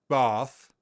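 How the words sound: It has the southern English long vowel.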